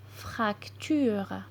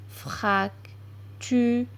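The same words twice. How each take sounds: First: Said in the usual way. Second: "Fracture" as FRAC ... TU ... RE, with pauses; syllable by syllable. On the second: Shown as a demonstration. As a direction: sound out "Fracture" slowly in three parts, frac, tu, re. (« Fracture » lu syllabe par syllabe, frac – tu – re) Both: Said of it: "lire des mots avec les syllabes complexes".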